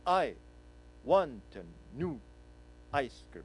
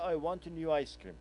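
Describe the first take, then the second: First: It is said in even beats with silent rests. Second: It is said smoothly with no rhythmic pauses.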